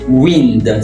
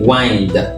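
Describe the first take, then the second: First: The vowel is a short 'i' sound. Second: The vowel is a long 'eye' sound. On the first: It means moving air. "s'il s'agit du vent" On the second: It means turning something to tighten it. "régler une montre"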